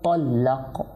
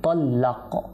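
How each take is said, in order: Both takes have the same delivery.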